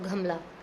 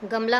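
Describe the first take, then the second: First: The first consonant is said with a strong puff of air. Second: The first consonant is said without a puff of air.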